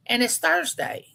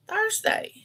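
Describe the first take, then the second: First: Said in the usual way. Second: "Thursday" shot up much higher with a rising tune; disbelieving Thursday. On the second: Real, not acted. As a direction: exclaim "Thursday" as if you can't believe it. Repeats the day in disbelief.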